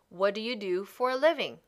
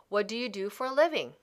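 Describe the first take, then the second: No difference in how they are said.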